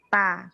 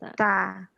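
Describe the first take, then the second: First: The t is made with the tongue bitten, unbreathy. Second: The t is released with breath behind the teeth. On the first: The speaker calls it wrong. "bukan ta" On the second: The speaker calls it right. "biar dia hamas, jangan digigit lidahnya, tapi agak di belakang gigi sedikit"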